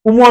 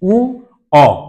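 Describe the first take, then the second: First: It is said as one syllable ending in m. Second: It is said as two vowels without a final m. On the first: The speaker calls it wrong. "উম নয় কিন্তু।" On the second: The speaker calls it right. "এর প্রকৃত উচ্চারণ হবে উ অ।"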